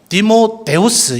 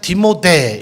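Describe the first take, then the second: First: The name is said with five syllables. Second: The name is said with three syllables. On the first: This is the accurate Greek form. "헬라식의 정확한 발음대로 한다면 디모데우스 이렇게 발음을 하는 것이 오히려 맞습니다" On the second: This is the form used in the Korean Bible. "우리 한글 성경에는 디모데 이렇게 되어 있지만"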